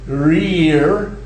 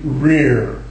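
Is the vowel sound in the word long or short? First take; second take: long; short. First: The vowel is said long and full. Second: The vowel is said short before the R. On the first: The speaker calls it wrong. "instead of rear" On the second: The speaker calls it right. "the R causes the shortening"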